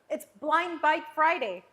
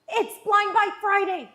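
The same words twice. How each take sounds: First: It is said plainly, without much energy. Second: It is said with energy and conviction.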